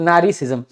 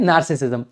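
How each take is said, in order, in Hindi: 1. यह शब्द लंबी 'naari' ध्वनि से शुरू होता है। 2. यह शब्द छोटी 'naar' ध्वनि से शुरू होता है। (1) "नार्सिसिज्म यानी कि नारी" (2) "इसका करेक्ट प्रोनाउंसिएशन होता है नार्सिसिज्म"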